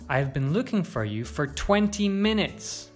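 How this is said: The stress is on twenty minutes. The length of time matters most. "You could also stress twenty minutes"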